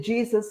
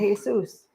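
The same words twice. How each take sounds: First: It starts with a J sound. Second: It starts with an H sound. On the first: "in Mexico they don't say Jesus" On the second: "they say Jesus"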